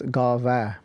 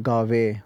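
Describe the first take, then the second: First: The word ends with an 'ah' vowel. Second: The word ends with an 'ay' vowel. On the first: The speaker calls it right. "so it's Gava" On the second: The speaker calls it wrong. "read Guru Nanak Dev Ji's Japji in a rush, it can turn into Gave, which is then a lav"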